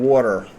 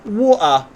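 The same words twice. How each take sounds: First: The word is said in an American accent. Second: The word is said in an English accent. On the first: "an American accent" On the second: "an English accent"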